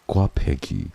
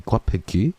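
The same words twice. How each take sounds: First: Gwapeki read out with a falling end; tentative sounding-out. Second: Gwapeki with a rising, unsure end; questioning read. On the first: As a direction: say Gwapeki as a statement, voice dropping at the end. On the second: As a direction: ask Gwapeki as a question, pitch lifting high at the end. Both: Real, not acted. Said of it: "did I read it right?".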